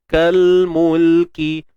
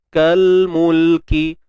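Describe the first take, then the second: No difference in how they are said.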